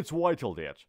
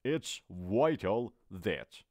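First: It's vital that with a clear vital; teacher modeling vital; model phrase. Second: It's vital that drawn out slowly; teacher repeating it's vital that very slowly. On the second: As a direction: stretch every word of It's vital that. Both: Shown as a demonstration.

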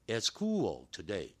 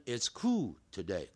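First: "cool" as "koo-ol", final L sounded before "today"; correct pronunciation. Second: "cool" as "koo", L dropped before "today"; wrong pronunciation. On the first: Teacher modelling a sentence for students, correct pronunciation. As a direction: glide "cool" into a dark L. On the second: Teacher warning students of a mistake, L-less mispronunciation. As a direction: leave the L off "cool". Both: Shown as a demonstration. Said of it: "可不要念成".

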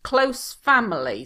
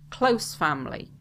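First: "Close family" read out louder and higher, stress on "close"; model answer read out. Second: Said in the usual way. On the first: Shown as a demonstration. Teacher reading a model answer phrase, "close" louder and higher. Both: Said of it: "instead of saying my parents".

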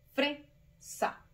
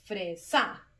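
First: "fresa" split, FRE high and strong, SA dropped; stress on FRE. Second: "fresa" split, questioning, with SA punched; stress on SA. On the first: Teacher showing the tonic syllable, "fresa" with FRE stressed. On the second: Teacher testing pupils with wrong option, "fresa" stressed on SA. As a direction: say "fresa" as fre... SÁ, hitting the end. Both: Shown as a demonstration. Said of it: "¿Dónde está la sílaba tónica?".

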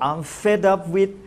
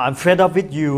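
First: Very slow, stretched, higher, rising at the end; slow demo phrase. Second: Said in the usual way. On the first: Shown as a demonstration. Teacher showing TV viewers the phrase, very slow and rising. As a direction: spell out "I'm fed up with" slowly and deliberately, ending on a rise. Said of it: "เขาก็บอก". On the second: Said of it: "ถ้าบอกว่า".

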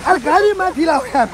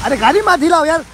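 First: Higher pitched repeat of complaint. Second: Louder call to stop shaking; car shaking complaint. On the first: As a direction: say it again, pitched up. (दोबारा ऊँची आवाज़ में शिकायत) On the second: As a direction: tell them to stop rocking. (गाड़ी हिलाने पर ज़ोर से) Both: Real, not acted.

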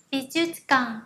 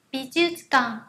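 The two takes are said the same way.

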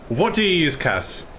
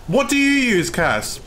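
First: Said in the usual way. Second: Pressing the question in disbelief; exasperated. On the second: Real, not acted.

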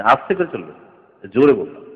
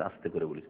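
First: Father correcting the son, firmly louder; father insisting, louder. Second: Quiet, low reply; a small son admits he said it softly, quiet; child answering softly. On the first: Firm parental correction. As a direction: punch জোরে louder. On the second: Quiet child voice. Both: Retold or imitated. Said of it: "বলছে".

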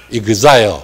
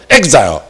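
First: Exile said the Japanese way, like ee-kee-za-yo; Japanese pronunciation. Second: Exile said the American way, like ek-sigh; American pronunciation. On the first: Teacher shows students the Japanese way of saying exile. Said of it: "那日本发音是读作exile". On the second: Teacher contrasts the American way of saying exile. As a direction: read exile short and English, ek-sigh. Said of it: "那美国发音是发音做exile". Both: Shown as a demonstration.

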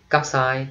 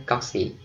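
First: Cocci said as KOCK-sigh, ending in a sigh sound; first way to say cocci. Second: Cocci said as KOCK-see, ending in an ee sound; second way to say cocci. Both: Shown as a demonstration. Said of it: "hai cách đọc là cocci hoặc là cocci".

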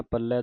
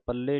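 First: ਪੱਲੇ ending in an open ai; ਪੱਲੇ with a wide final vowel; correct final ai. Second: ਪੱਲੇ ending in a close e; ਪੱਲੇ with a narrow final vowel; mistaken final e. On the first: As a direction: say ਪੱਲੇ as pal-lai, like eh. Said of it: "ਪੱਲੇ ਦਲਾਵਾਂ ਦੇ ਨਾਲ". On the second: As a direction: say ਪੱਲੇ as pal-lay. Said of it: "ਪੱਲੇ ਨਹੀਂ ਕਹਿ ਦੇਣਾ". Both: Shown as a demonstration.

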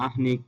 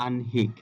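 First: "আহ্নিক" as ah-nik; ভুল উচ্চারণ. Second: "আহ্নিক" as an-hik; সঠিক উচ্চারণ. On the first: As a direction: put the h before n in "আহ্নিক". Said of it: "এই উচ্চারণগুলো ভুল". ("আহ্নিক"-এ আগে হ, পরে ন) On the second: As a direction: put n before h in "আহ্নিক". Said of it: "নটা আগে উচ্চারিত হবে". ("আহ্নিক"-এ আগে ন, পরে হ) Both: Shown as a demonstration.

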